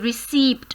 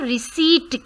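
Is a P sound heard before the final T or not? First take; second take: heard; not heard. First: A P sound is heard before the T. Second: No P sound is heard before the T. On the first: The speaker calls it wrong. "We don't say receipt" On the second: The speaker calls it right. "हम इसको receipt कहते हैं"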